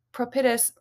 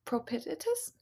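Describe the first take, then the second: First: Said in the usual way. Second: "propitious?" asked back with a high rising question; unsure query. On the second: Real, not acted. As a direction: doubt the word "propitious?", voice jumping up at the end.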